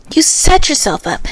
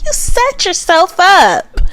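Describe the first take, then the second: First: Said in the usual way. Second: High, slow teasing scold. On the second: Real, not acted. Scolding Chelsea for the Megan Fox claim, high teasing. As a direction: drag it out mockingly. Repeated line, first higher.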